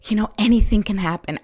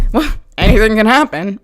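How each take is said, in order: First: Said in the usual way. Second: Louder, uneasy anything can happen; fearful dread. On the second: Shown as a demonstration. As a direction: say it as a worried warning. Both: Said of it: "as opposed to".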